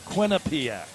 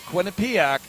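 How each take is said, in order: First: The stress is on the first two syllables. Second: The stress falls on a later syllable. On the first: The speaker calls it right. "The emphasis on the first two syllables" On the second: The speaker calls it wrong. "Not Quinnipiac"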